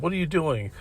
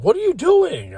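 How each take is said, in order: First: Retold snippy question, somewhat higher; shitty tone. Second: Mock panicked cry, very high-pitched; frantic panic. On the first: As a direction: imitate a nasty questioning tone, pitched up a little. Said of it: "it was a really shitty tone". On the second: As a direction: imitate someone frantic, voice shooting way up. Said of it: "in a frantic, like, panic".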